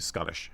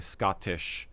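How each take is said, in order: First: The word is said quickly and casually. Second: The word is said slowly and carefully. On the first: "as opposed to" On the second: "try to slow it down a little bit"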